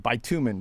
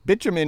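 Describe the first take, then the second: First: The word is said the American way. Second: The word is said the British way. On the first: "We say bitumen because we're afraid of cussing" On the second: "Bitumen is what they say in England"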